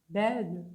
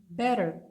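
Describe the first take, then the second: The two takes are said the same way.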